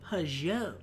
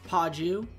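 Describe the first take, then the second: First: The name is said with a French accent. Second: The name is said with an English accent. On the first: The speaker calls it right. "I gotta say it like with the French accent" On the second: The speaker calls it wrong. "Not Paju"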